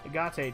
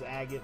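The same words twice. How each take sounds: First: It is said with Japanese-style syllables. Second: It is said like the English word for the stone. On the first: "Very Japanese way to pronounce it" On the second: "it probably is Agate like the stone"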